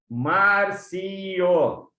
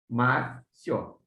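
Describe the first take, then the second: First: The final i and o are split apart. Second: The final i and o form one syllable. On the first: The speaker calls it wrong. "É assim que quase todo mundo tem a tendência de separar" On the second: The speaker calls it right. "Esse io que a gente marca assim, gente, como se fosse um Y"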